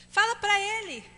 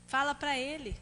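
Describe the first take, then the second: First: Higher, pushed "Fala pra ele"; urging. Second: Softer, settled "Fala pra ele"; calm repeat. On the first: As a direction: press "pra" as an urgent order. ("Fala pra ele" enfático e mais agudo) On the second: ("Fala pra ele" mais baixo e calmo) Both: Shown as a demonstration.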